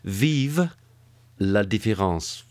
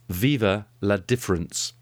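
First: It is said with sultry French sounds. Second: It is said plainly with anglicized sounds. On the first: The speaker calls it right. "Let me put it a different way. Does that sound sexy?" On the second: The speaker calls it wrong. "I'll give you that pronunciation of it"

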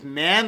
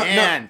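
First: The pitch rises at the end, like a question. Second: The pitch falls at the end. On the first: It sounds like a question. The speaker calls it wrong. "not like man. Like it's a question" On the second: It sounds like a statement. The speaker calls it right. "so it goes down in intonation"

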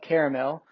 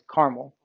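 First: It is said the East Coast way. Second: It is said the Western and Midwestern way. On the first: "most people on the East Coast call it caramel" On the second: "In the West and on the Midwest is caramel"

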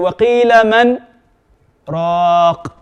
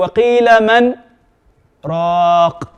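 First: There is a slight pause after man. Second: There is a slight pause after man.

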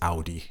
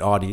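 First: The first vowel is an 'ow' sound. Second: The first vowel is not an 'ow' sound. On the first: The speaker calls it right. "because an A-U in German is au, like, ow" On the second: The speaker calls it wrong. "We've heard a few people say it Audi"

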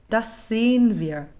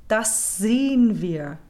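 No difference in how they are said.

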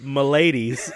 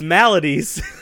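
First: The word sounds like m'lady with an added s. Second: The word has three full syllables, mal-a-dies. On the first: The speaker calls it wrong. "you said maladies" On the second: The speaker calls it right. "It's maladies"

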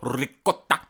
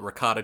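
First: It is said in an exaggerated foreign style. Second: It is said in a plain English way. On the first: "They go ricotta. and they have to say it like that" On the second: "Most human beings call it ricotta cheese"

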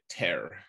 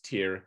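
First: The vowel rhymes with 'air'. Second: The vowel rhymes with 'ear'. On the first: This matches the name of the people who live there. The speaker calls it right. "I think we should be calling it Tyr" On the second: This is how most people say it. The speaker calls it wrong. "like they pronounce it as Tyr"

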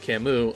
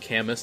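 First: The name is said the French way. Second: The name is said the anglicized way. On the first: The speaker calls it right. "Apparently it's French" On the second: The speaker calls it wrong. "if I keep saying Camus"

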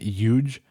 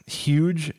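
First: The word begins with a Y sound. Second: The word begins with an H sound.

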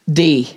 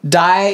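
First: The vowel sounds like English 'see'. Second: The vowel sounds like English 'eye'. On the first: The speaker calls it right. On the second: The speaker calls it wrong.

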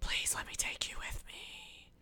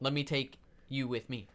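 First: It is whispered. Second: It is said out loud.

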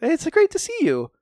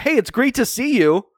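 First: It is said in a more polite tone. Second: It is said in a plainer tone.

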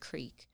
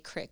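First: The vowel is long, like creek. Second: The vowel is short, like crick. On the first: This is the form the speaker was not raised with. "instead of creek" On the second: This is how the speaker was raised to say it. "I was raised to say crick"

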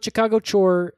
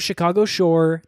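First: The word is said in a Chicago accent. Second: The word is said in a neutral accent.

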